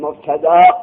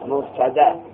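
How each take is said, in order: First: The final vowel is lengthened before the glottal stop. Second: The final vowel is short, without lengthening. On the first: The speaker calls it wrong. "طلبای مبتدا میگن مبتدا. ای غلطه" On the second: The speaker calls it right. "اسم مفعولش مبتدا"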